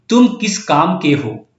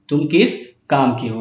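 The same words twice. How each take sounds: First: तुम stressed and drawn out, whole question read slowly; slow emphatic reading. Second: Said in the usual way. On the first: Shown as a demonstration. Teacher reading the exam sentence to students, slow and emphatic on तुम. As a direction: lean on तुम, let the question hang slowly. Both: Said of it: "अब देखिए".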